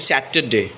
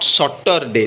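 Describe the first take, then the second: First: "Saturday" said as SAT-uh-day; correct pronunciation. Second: "Saturday" said as SOT-tor-day; mispronunciation. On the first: Teacher giving the correct word, "Saturday" as sat-uh-day. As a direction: open "Saturday" with a short a as in sat. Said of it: "this is Saturday". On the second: Teacher showing the mistake, "Saturday" as sottorday. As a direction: say "Saturday" with an o sound first. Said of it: "this is not Saturday". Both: Shown as a demonstration.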